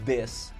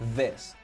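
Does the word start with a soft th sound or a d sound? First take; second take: d sound; th sound. First: It starts with a hard d sound. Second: It starts with a soft, airy th sound. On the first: "fale com um D mesmo" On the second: "Linguinha aqui é the. Só pro ar"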